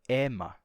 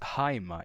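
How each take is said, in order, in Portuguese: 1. Começa com a vogal e simples, sem h. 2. Começa com h e tem ditongo ai. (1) "O ditongo ai se torna é e a aspiração se perde" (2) "não é mais haima"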